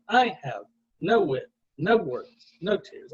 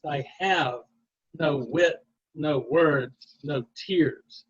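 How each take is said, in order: First: Lopsided DUM-da beat, punching "I", "no", "no", "no"; "I have no wit, no words, no tears" with the first word of each pair hit hard; trochaic stress. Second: Measured da-DUM beat, landing on "have", "wit", "words", "tears"; "I have no wit, no words, no tears" with every second word stressed; iambic stress. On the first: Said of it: "Do it the other way, the trochee". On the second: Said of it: "where is the emphasis?". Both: Shown as a demonstration.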